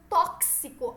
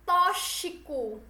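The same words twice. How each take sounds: First: "tóxico" with a crisp K-S in the middle. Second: "tóxico" slowly, X said like "ch"; "tóxico" with a hushing SH in the middle. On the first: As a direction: say "tóxico" as "tóksico". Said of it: "é esse K S". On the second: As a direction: mispronounce "tóxico" as "tóchico". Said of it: "tá errado". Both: Shown as a demonstration.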